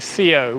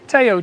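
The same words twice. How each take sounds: First: The name begins with a TH sound. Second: The name begins with a plain T sound. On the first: This is how English speakers say it. "in English uh, you'll say Theo" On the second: This is how it is said locally. "We don't pronounce the H here"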